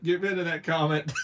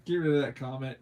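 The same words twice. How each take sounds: First: Louder, laughing as he repeats it; giggling order. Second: Said in the usual way. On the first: Real, not acted. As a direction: say it again through laughter.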